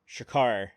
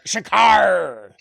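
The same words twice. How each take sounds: First: It is said in a plain, normal voice. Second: It is yelled in a gruff pirate voice.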